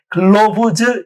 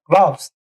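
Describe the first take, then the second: First: The plural ending is clearly voiced and stressed. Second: The plural ending is barely audible and unstressed. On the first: The speaker calls it wrong. "저에 강세를 붙이면 못 알아들을 수가 있어요" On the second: The speaker calls it right. "glove, rope에 강세를 주면 되는 거예요"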